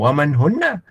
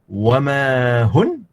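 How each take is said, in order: First: The phrase ends with a final vowel. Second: The phrase ends on a consonant. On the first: The speaker calls it wrong. "bukan waman hunna" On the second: The speaker calls it right. "matikan hujungnya"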